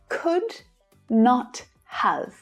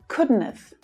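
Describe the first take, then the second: First: Each word is said fully and separately. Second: The words are run together in a contraction.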